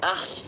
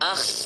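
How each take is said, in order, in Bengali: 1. শেষের kh আওয়াজটি খুব কড়া আর খড়খড়ে। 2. শেষের kh আওয়াজটি খুব কড়া আর খড়খড়ে।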